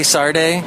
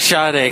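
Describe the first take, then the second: First: The name is said with an r sound. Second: The name is said without an r sound. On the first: This is how the other person seems to say it. "But you say Sarde? ... Is there an R in it?" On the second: This is how the speaker says the name. "I say Sade because I grew up in Ventura"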